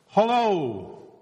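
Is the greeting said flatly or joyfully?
joyfully. It is said with great joy.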